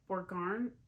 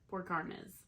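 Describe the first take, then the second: First: The word ends without a final nes syllable. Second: The word ends with a clear nes syllable. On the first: The speaker calls it wrong. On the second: The speaker calls it right. "I know the Ness is is said at the end there"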